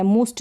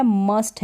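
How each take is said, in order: First: "मुस्ट" with a u as in put; wrong vowel. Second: "मस्ट" with an uh vowel; correct short vowel. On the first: Teacher warning beginners off a wrong reading, "मुस्ट" with u. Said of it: "मुस्ट नहीं पढ़ेंगे इसको". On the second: Teacher giving beginners the right reading, "मस्ट" with uh. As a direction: say "मस्ट" like must. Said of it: "फिर ये है मस्ट". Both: Shown as a demonstration.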